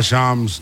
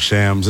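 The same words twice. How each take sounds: First: SHAMS with open "ah" vowel; preferred pronunciation. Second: SHAMS with short "a" as in "cat"; colleague's pronunciation. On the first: Shown as a demonstration. Guest answers which he uses, "Shams" with "ah" vowel. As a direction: say "Shams" like "shahms". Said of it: "Shams or Shams? What do you go with?". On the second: Retold or imitated. Guest quotes colleague's preference, "Shams" with cat vowel. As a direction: say "Shams" to rhyme with "hams". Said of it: "Denton loves Shams".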